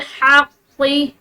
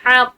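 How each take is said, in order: First: The word ends with a short final i vowel. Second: The word stops short with no final vowel. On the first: The reader continues without stopping. "बगैर वक्फ के ये इसका कसरा भी पढ़ा जाएगा" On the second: The reader stops at this word. "ये वक्फ के साथ इसको पढ़ेंगे"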